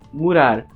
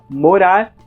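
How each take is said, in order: First: The first vowel is a u sound, European style. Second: The first vowel is an o sound, Brazilian style. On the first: "ao U do português europeu" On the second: "a vogal O do português brasileiro"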